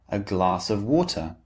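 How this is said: The T in water is clear and strong. "So the T sound is very clear and distinct"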